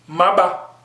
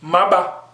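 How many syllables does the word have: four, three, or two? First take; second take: two; two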